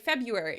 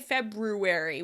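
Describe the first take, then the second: First: A syllable or sound is dropped. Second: Every syllable is pronounced in full. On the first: "we say February because we say it so often" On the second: "We don't say February"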